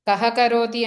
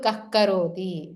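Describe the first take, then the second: First: The h-sound is a plain breathy visarga. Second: The h-sound is a friction at the back of the tongue. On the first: "విసర్గ కూడా ఉంటుంది" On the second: "జిహ్వామూలీయం అవుతుంది. అప్పుడు"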